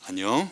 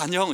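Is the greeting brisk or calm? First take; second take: calm; brisk. First: The greeting is slow and composed. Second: The greeting is quick and casual. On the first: The friends now act like pious theology students. "목소리도 좀 더 여유 있고" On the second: The speaker greets friends in his usual way. "저는 아 안녕 이러는데"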